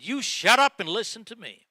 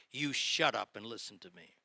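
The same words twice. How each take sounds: First: Retold manager's telling-off, raised and louder; harsh, impolite rebuke. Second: Said in the usual way. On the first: Manager cuts off his excuse-making salesman, harsh and loud. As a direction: snap it louder and higher, imitating a stern boss. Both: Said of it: "He didn't say this politely".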